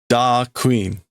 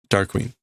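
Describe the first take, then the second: First: It is said with Japanese-style sounds. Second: It is said with ordinary English sounds.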